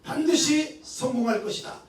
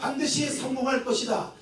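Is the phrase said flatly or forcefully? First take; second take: forcefully; flatly. First: It is said forcefully with strong energy. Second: It is said in a plain, flat voice. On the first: Confidence wells up in the speaker. "자신감이 막 솟아오릅니다" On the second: It is only a statement. "그냥 우리가 반드시 성공할 것이다 이렇게 이야기하는 것"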